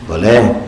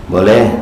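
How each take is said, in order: The two takes are said the same way.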